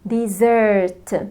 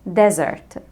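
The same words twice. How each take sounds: First: The stress is on the second syllable. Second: The stress is on the first syllable. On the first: A sweet course after a meal. "شايفين السيلابل التاني زرت طويل" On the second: A dry sandy region. "الستريس موجود على ال first syllable"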